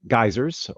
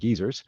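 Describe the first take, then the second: First: The word has an American pronunciation. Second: The word has a British pronunciation.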